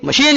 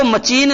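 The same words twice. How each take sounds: First: Said in the usual way. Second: मशीन mispronounced with च in place of श, like "ma-cheen"; wrong ch sound. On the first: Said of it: "मशीन ही बोलना पड़ेगा". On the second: Shown as a demonstration. Teacher showing students what not to say, मशीन with "ch" for "sh". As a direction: say मशीन with a "ch" in the middle. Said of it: "इसको मशीन न बोल करके".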